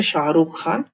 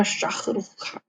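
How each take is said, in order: First: Said in the usual way. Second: शाहरुख खान with a harsh kh for the h, said the Russian way; Russian-style pronunciation. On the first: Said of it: "पर Russian में शाहरुख खान". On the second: Shown as a demonstration. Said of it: "पर Russian में".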